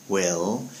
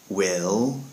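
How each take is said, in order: The two takes are said the same way.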